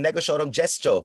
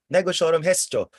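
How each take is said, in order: First: The last word begins with a hard G. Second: The last word begins with an H sound. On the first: The speaker calls it wrong. "Ang pangit ng negotiorum gestio, parang matigas" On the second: The speaker calls it right. "mas maganda siyang gamiting spell ng Harry Potter"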